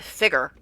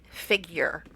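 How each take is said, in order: First: It is said British-style, rhyming with trigger. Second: It is said with an American 'figyer' sound. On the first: "they pronounce it figure, like as in rhyming with trigger" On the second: "I've always pronounced it figure"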